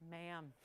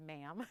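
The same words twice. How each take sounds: First: Low, soft, flat "Ma'am."; quoted ma'am, dry. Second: Quoted ma'am. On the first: Carrie Bradshaw snubbing the noisy young neighbor, a low dry ma'am. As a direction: say "Ma'am." low and quiet like a cold rebuke. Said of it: "She goes". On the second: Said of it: "when I said, like". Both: Retold or imitated.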